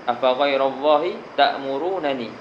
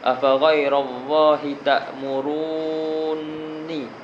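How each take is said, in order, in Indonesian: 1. Dua bunyi n itu diucapkan secara terpisah. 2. Dua bunyi n itu menyatu menjadi satu n bertasydid. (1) "Patutnya ta'murunani" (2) "Dia ada syaddah"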